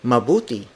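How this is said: The phrase is said with clear rising-falling pitch.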